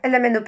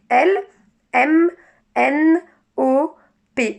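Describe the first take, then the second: First: The letters are run together without pauses. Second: Each letter is articulated separately with pauses. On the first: The letters cannot be told apart. The speaker calls it wrong. "il n'est pas conscient de chaque lettre" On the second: Each letter can be recognized. The speaker calls it right. "On articule bien"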